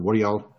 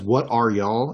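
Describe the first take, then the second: First: "are" reduced and joined onto "y'all"; run-on y'all. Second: "are" said in full, apart from "y'all"; separated y'all. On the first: Host contrasting the natural Southern way, run-on y'all. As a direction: let "What are y'all" flow as one word. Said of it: "instead of". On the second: Host mimicking somebody faking Southern, separated y'all. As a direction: give each word of "What are y'all" its own space. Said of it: "If somebody does". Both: Shown as a demonstration.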